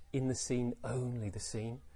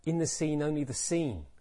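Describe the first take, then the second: First: "only" lifted, "scene" dropping away; stress on only. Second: "scene" carries the weight, "only" stays light; stress on scene. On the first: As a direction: lean on the word "only" and let "scene" fall. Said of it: "Did he emphasize only in the way that I just did?". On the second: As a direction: land firmly on the word "scene". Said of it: "Or wasn't that really the important word?". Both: Shown as a demonstration.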